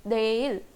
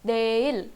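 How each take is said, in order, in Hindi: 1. शब्द की शुरुआत d की आवाज़ से होती है। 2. शब्द की शुरुआत d की आवाज़ से होती है।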